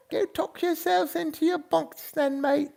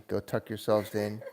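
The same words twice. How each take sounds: First: Put-on high old British lady voice with a laugh; chuckling old lady British accent. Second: Said in the usual way. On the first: Shown as a demonstration. Host signing off to viewers in a high British old lady accent. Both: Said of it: "You guys go to sleep in the British accent".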